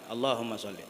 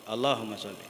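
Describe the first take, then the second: The two takes are said the same way.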